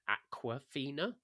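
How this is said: The name is said in an American accent. "meant to sound in an American accent like Aquafina"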